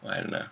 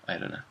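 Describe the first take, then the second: No difference in how they are said.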